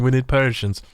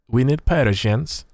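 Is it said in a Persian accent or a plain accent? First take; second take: plain; Persian. First: It is said in the speaker's plain accent. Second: It is said in a put-on Persian accent.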